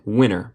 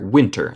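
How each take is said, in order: First: The t sound after n is dropped. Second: The t sound after n is pronounced. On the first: This is the American way of saying it. "recuerden el acento estadounidense cuando tenemos N T no decimos el T" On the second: This is the more British way of saying it. "pero se puede ser winter, es más británico"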